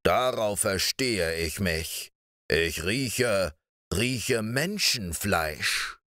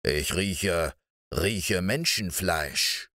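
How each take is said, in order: First: Slow giant. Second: Low, slow, sniffing giant voice; a menacing ogre slowly smelling out prey; eerie giant. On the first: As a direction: draw out the sniffing words like a hungry ogre. (langsame, drohende Riesenstimme) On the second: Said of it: "sagte er unheimlich". (unheimliche, tiefe Riesenstimme) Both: Acted.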